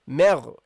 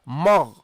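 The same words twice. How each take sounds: First: The m sound is light and thin. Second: The m sound is heavy and full. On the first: The speaker calls it right. "you start light" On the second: The speaker calls it wrong. "You don't say"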